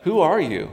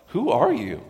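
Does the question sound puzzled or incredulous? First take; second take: puzzled; incredulous. First: It sounds like a plain, puzzled question. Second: It sounds like an incredulous, challenging question. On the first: He cannot see who is there in the dark. "Like, who is this? Like, I can't see, it's dark" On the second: He is amazed that she would do this. "Like, why would you do this?"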